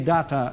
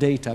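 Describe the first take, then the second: First: The word is given its Latin pronunciation. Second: The word is given its English pronunciation. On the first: The speaker calls it right. "We say data, because it's Latin" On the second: The speaker calls it wrong. "not data"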